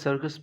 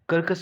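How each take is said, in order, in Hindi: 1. यह s से शुरू होता है, फिर एक k की आवाज़। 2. यह k से शुरू होता है, फिर एक k की आवाज़। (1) "सी के बाद आई है तो पहले वाले सी का उच्चारण यहां पर स होगा" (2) "कर्कस क्यों नहीं पढ़ते"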